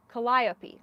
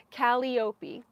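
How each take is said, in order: First: Calliope as kuh-LIE-uh-pee, stress on the second syllable; correct pronunciation. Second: Calliope said KAL-ee-OH-pee, long E in the second syllable; mispronunciation. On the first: Knitter finally getting the name, Calliope correctly as kuh-LIE-uh-pee. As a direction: say Calliope smoothly with the accent on LIE. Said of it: "that sounds so much better". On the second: Knitter misreading a colorway name, Calliope wrongly as KAL-ee-OH-pee. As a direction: say Calliope as if spelled Callie-opey. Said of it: "I'm gonna say it wrong". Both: Real, not acted.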